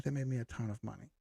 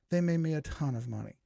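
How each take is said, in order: First: Softer and fast, tossed off; a quick soft repeat; quick soft aside. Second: Said in the usual way. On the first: Real, not acted. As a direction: say it again under your breath, quick. Quieter, faster repeat of the line.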